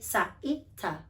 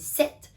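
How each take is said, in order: First: Extra vowel sounds follow the consonants. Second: The consonants are pure, with no extra vowels. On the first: The speaker calls it wrong. "if you're introducing the sound S as sa or T as ta" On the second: The speaker calls it right. "We say sit"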